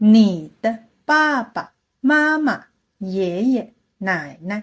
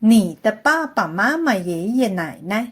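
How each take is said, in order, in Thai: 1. ประโยคนี้พูดค่อนข้างเร็ว 2. ประโยคนี้พูดเร็วมาก (1) "ลองเที่ยวขึ้นสักหน่อยไหมคะ" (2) "ลองพูดให้เร็วขึ้นอีกนิด"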